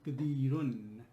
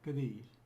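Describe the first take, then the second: First: The word ends with an added un sound. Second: The word ends on the r sound. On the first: "if we fully pronounce this" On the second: "end of the first ayah"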